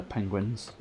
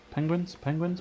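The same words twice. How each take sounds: First: Said in the usual way. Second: Higher, rising Penguins?; amused disbelief at Penguins?; incredulous. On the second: Real, not acted. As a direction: question the name Penguins? in disbelief. Incredulous at the team name.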